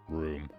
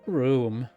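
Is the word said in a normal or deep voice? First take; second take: deep; normal. First: It is said in a sudden deep voice. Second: It is said in an ordinary voice. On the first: The speaker calls it right. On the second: The speaker calls it wrong.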